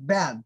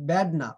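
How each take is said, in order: First: "ব্যাড" with a long, open æ; open æ bad. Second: "ব্যাড" flattened to a bed-like e; wrong bad. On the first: Teacher models correct word, "ব্যাড" with open æ. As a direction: stretch the middle vowel of "ব্যাড". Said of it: "মাঝখানে কিন্তু উচ্চারণটা এর". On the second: Teacher shows the mistake, "ব্যাড" sounding like bed. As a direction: say "ব্যাড" with a narrow e. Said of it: "ব্যাড না, ব্যাড". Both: Shown as a demonstration.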